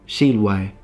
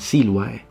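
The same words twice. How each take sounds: First: The S is retracted, sounding close to sh. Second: The S is fronted, a sharp hiss. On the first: "retracted S" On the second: "rather than Silvae"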